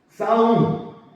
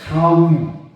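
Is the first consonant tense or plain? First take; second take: tense; plain. First: It starts with a tense, hard s sound. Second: It starts with a plain, soft s sound.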